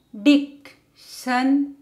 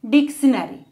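First: Dictionary as dic-tion-a-ry, spaced out; four separate beats for Dictionary; syllable by syllable. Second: Said in the usual way. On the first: Shown as a demonstration. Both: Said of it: "how to divide words".

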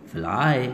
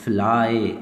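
First: फ्लाई said again with a falling close on ए; teacher repeating फ्लाई for the class; repeated fly demo. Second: फ्लाई said with a falling close on ए; teacher demonstrating the y in फ्लाई; demo of fly. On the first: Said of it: "यहाँ पे क्या निकाल रहा था?". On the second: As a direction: sound out फ्लाई with a clear ए. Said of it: "वाई ने क्या sound निकाल डाली?". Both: Shown as a demonstration.

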